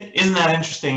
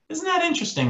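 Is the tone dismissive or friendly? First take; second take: dismissive; friendly. First: It sounds closed off and dismissive. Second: It sounds warm and smiling.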